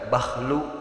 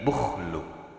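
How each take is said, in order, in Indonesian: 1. Vokal pertama adalah bunyi 'a' terbuka. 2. Vokal pertama adalah bunyi 'u' membulat. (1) "bisa dibaca patah huruf ba'na" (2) "dibaca domah sareng huruf kha'na dibaca sukun"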